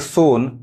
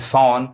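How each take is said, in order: First: The vowel is a long closed 'oh' sound. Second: The vowel is an open 'aw' sound. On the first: "गलत हो जाएगा" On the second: "गलत हो जाएगा"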